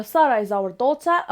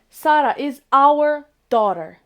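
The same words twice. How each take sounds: First: Said in the usual way. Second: Slow and louder, every word separate; slow dictation. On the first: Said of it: "أولا". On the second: Shown as a demonstration. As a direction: spell out the sentence for learners. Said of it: "باش نقول بنتنا غادي نقول".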